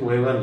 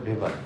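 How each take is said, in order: First: The name begins with a W sound. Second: The name begins with a V sound. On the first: The speaker calls it wrong. "আমরা অনেক সময় দেখি ওয়েবার লেখা" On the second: The speaker calls it right. "আসলে এটা হবে ভেবার"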